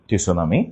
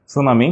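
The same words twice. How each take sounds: First: "টি সুনামি" with the T named up front; silent letter voiced. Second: Said in the usual way. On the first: Shown as a demonstration. Teacher leading repetition, "টি সুনামি" with silent T sounded. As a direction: add a spoken "tee" before "সুনামি". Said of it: "সুনামি বানানে টি সুনামি". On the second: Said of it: "উচ্চারিত হয় না".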